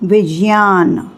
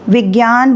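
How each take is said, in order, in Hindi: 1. इस संयुक्त अक्षर का उच्चारण 'j plus y' जैसा होता है। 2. इस संयुक्त अक्षर का उच्चारण 'j plus y' जैसा नहीं होता। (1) "वास्तव में इसको बोलना चाहिए" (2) "विज्ञान बोलते हैं"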